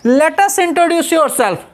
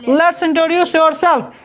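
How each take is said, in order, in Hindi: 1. Let us दो पूरे शब्दों की तरह बोला जाता है। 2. Let us को एक सिलेबल में संक्षिप्त कर दिया जाता है।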